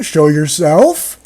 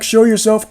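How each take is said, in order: First: "show yourself" slow, with "yourself" swung up into a question; rising question. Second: Said in the usual way. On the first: Shown as a demonstration. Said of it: "question mark, question". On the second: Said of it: "Jacob yelled back".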